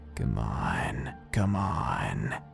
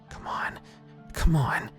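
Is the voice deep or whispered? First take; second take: deep; whispered. First: It is said in a deep, guttural voice. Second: It is whispered almost silently. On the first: A creature mimics the narrator's words. "a voice so deep and guttural" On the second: The narrator is urging the hammock to untie. "I whispered almost silently"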